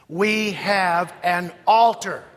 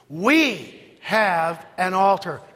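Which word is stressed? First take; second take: altar; We. First: The stress falls on the word altar. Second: The stress falls on the word we. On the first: "Emphasis on altar" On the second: "Say it with the emphasis on the word we"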